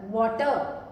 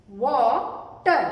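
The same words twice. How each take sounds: First: Said in the usual way. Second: water stretched into वा, pause, टर; split syllables. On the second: Shown as a demonstration. Teacher repeating the parts for pupils, split syllables. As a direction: say "water" very slowly, one syllable at a time. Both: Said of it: "इसे भी जब आप जोड़कर बना रहे हैं".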